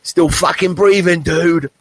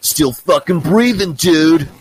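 First: Put-on high and loud old-man shout; loud, high old dude boast; gruff old dude again. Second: Put-on high, slow, loud gravel-free bark of an old man; loud, slow old dude boast; gruff old dude. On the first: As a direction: throw the line out like the old man did. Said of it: "And he said". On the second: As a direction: play the cool old guy shouting his line. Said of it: "And he goes".

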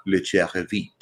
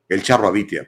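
First: "Le Charrevit" pronunciado a la francesa; acento francés en broma. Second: Said in the usual way. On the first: Pretend. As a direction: nombre mexicano afrancesado con acento francés. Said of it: "si les gusta el francés". (acento francés fingido) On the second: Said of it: "para los que hablamos español".

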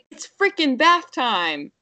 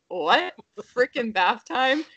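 First: Higher, slow mock toddler announcement; sassy toddler. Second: Put-on higher, questioning echo of the toddler; mock disbelief. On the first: Mom imitates her sassy toddler upstairs, high and drawn out. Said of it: "she's upstairs and she's like". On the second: Parents react to toddler's new word, high incredulous question. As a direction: repeat it as a baffled parent's question. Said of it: "And we're like".

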